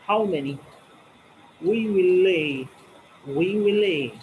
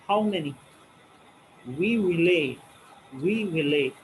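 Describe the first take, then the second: No difference in how they are said.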